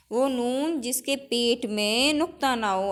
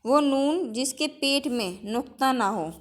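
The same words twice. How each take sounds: First: Slower, each word spaced for copying; slow dictation. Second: Said in the usual way. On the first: Shown as a demonstration. Teacher repeating the rule slowly for the class to note down. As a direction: dictate it slowly so students can write. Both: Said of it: "teacher dictates the definition twice".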